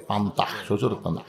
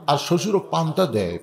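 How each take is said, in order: First: Much lower, softer mocking repeat of শ্বশুর পান্তা; hushed teasing echo; quiet aside. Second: Said in the usual way. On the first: Shown as a demonstration. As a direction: murmur it as a sly jab.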